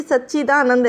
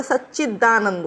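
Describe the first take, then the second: First: सच्चिदानंद with a long ee: sach-chee-daa-nand; wrong pronunciation. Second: सच्चिदानंद with a short i: sach-chi-daa-nand; correct pronunciation. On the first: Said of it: "ऐसे नहीं होता". (सच्चिदानंद में "ची" लंबा बोलें) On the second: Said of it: "सच्चिदानंद होता है". (सच्चिदानंद में "चि" छोटा बोलें) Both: Shown as a demonstration.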